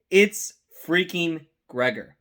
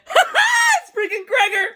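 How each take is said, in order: First: Said in the usual way. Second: Much higher, a laughing shout of recognition; excited laughing shout. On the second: Retold or imitated. Reliving spotting Gregor on screen, a higher excited laughing shout. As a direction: burst out laughing as you spot your favourite. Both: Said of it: "And I literally went".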